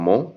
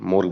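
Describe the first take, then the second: First: The final r is dropped. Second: The final r is clearly pronounced. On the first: The speaker calls it right. "R வரது எல்லாத்தையும் cut பண்ணிக்கோங்க" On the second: The speaker calls it wrong. "More பதிலா more"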